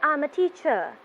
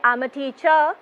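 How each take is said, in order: First: The voice falls at the end. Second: The voice rises at the end. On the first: The speaker calls it right. "your voice is going down" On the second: The speaker calls it wrong. "my voice is not going up. You don't say"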